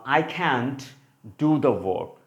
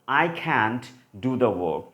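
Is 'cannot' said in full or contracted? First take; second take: contracted; contracted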